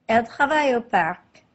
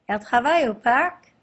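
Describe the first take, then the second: First: The voice falls at the end. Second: The voice rises at the end.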